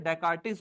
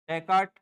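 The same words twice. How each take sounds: First: "डेकार्टिस" with an added "-is" ending; spelled-out pronunciation. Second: "डेकार्ट" ending on the t sound, no "is"; silent-ending pronunciation. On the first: Teacher giving students the other common name form, "डेकार्टिस" ending in "-tis". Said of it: "डेकार्टिस बोलते हैं ना". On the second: Teacher showing students a philosopher's name, short-ending pronunciation of "डेकार्ट". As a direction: say "डेकार्ट" in two syllables, stopping at the final t. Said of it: "बोलते हैं, डेकार्टिस बोलते हैं ना". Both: Shown as a demonstration.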